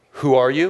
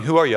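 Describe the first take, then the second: First: Said in the usual way. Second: "who ARE you", insistent; stress on ARE. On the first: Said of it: "I'd like to ask you again". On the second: Acted. Guard re-asking the visitor's identity, stress on ARE. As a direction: lean on ARE to clarify the question. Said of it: "No, no, I mean".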